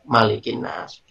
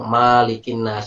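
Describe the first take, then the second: First: The first vowel of Malik is kept short. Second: The first vowel of Malik is held long. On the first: The speaker calls it right. "hanya pendek" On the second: The speaker calls it wrong. "baca panjang"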